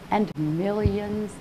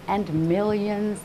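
The two takes are said the same way.

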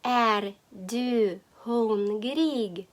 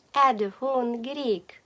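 First: "Är du hungrig" very slowly, each word apart. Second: Said in the usual way. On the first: Shown as a demonstration. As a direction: dictate "Är du hungrig" with drawn-out syllables. New phrase dictated slowly. («Är du hungrig» дуже повільно, по словах)

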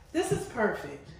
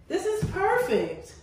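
First: Said in the usual way. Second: Laughing through the words; giggly delight. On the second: Real, not acted. Laughing while lounging in the tub.

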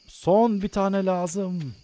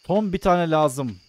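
First: "Son" drawn out slow and a bit higher; slow dramatic stretch. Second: Said in the usual way. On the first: Shown as a demonstration. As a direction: stretch "Son bir tane lazım" slowly, leaning on "Son". ("Son" kelimesini uzatarak, yavaş ve dramatik)

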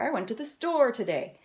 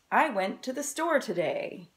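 First: "store" rises then falls, clearly leaned on; stress on store. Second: "store" lifted and leaned on; stress on store. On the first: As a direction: give "store" the weight of the sentence. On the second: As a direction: hit the word "store" in "I went to the store today". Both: Shown as a demonstration. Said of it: "the most important part of the sentence was the word store".

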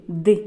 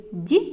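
First: Д as hard, unpalatalized "d"; short isolated Д with a dark release; hard Д, set apart; hard consonant. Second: Д as palatalized "d'"; short isolated Д with tongue raised; soft Д, like "dyi"; soft consonant. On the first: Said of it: "Вимовляємо слова разом так". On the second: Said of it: "твердий чи м'який звук". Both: Shown as a demonstration.

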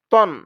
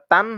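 First: তন with a rounded "o" vowel; correct rounded vowel. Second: তান with an open "aa" vowel; wrong open vowel. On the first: Teacher corrects students, তন with rounded "o". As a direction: say তন as heavy "ton". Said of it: "এটা হবে". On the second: Teacher warns students of a mistake, তান with open "aa". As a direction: say তান as "taan", unrounded. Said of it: "এটা তান হবে না". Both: Shown as a demonstration.

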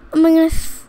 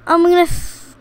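No difference in how they are said.

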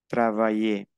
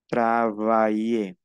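First: Said in the usual way. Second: TRAVAILLER slowly as "tra-va-i-ye"; drawn-out pronunciation demo. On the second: Shown as a demonstration. Teacher giving an example of sounded A I, drawn-out pronunciation demo. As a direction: stretch TRAVAILLER so both A and I sound. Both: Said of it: "aquí pronunció A I".

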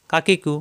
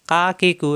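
No difference in how they are said.

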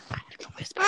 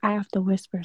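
First: Voiceless, hushed whisper. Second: Said in the usual way. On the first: Real, not acted.

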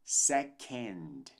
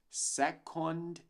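First: "second" as SEH-kend, slow and deliberate; reduced "end" ending in "second"; correct SECOND. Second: "second" as SEH-kond, with a full O; wrong SECOND. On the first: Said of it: "mas sim second". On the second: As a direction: say "second" as spelled, learner's mistake. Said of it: "Não dizemos second". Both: Shown as a demonstration.

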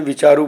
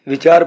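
First: ਵਿਚਾਰੂ with an "oo" after the r; ਵਿਚਾਰੂ misread, ending in -roo; wrong final u. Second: ਵਿਚਾਰ ending cleanly on r; ਵਿਚਾਰ, final short u left silent; silent final aunkar. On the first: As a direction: say ਵਿਚਾਰੂ, sounding the final aunkar. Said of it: "ਵਿਚਾਰੂ ਪੜ੍ਹੋਗੇ". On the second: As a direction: say ਵਿਚਾਰ with no u after the r. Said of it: "ਵਿਚਾਰ ਪੜ੍ਹਨੇ ਸ਼ੁੱਧ ਹੈ". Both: Shown as a demonstration.

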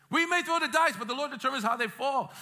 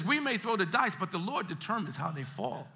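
First: Raised, preached declaration; emphatic repeat. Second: Said in the usual way. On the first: Shown as a demonstration. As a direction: drive the verse home, starting high. Repeats verse emphatically for congregation.

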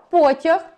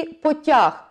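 First: Потяг stressed on the first syllable, ПО. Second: Потяг stressed on the last syllable, ТЯГ; stress on second syllable. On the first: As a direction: punch the ПО in потяг, as in the train. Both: Shown as a demonstration. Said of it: "по наголосу ми вже розуміємо".

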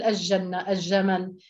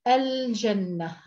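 First: الجنة said as اجنة, the ل merged into a doubled ج; الجنة and الجمل with no ل, the ج doubled; dialect merged lam. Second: الجنة said very slowly with a clear ل before ج; الجنة with the ل fully sounded, not merged into ج; clear lam. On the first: Teacher showing students the dialect الجنة, ل assimilated. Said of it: "اللهجة اللام ندغمها". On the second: Teacher modelling the correct Quranic الجنة for students, slow and clear. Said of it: "إدغام اللام في الحروف القمرية". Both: Shown as a demonstration.

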